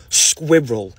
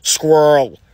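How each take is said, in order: First: "Squirrel" in two syllables, with the R in the middle; the British way, "Squirrel" as skwi-rel. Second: "Squirrel" as one syllable, skwurl, with a rolled-in R; mock the American way, a quick "Squirrel" that sounds like skwurl; louder, one-syllable "Squirrel". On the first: Shown as a demonstration. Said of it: "That's how you say it". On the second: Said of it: "How does America say the word squirrel? Is it like squirrel?".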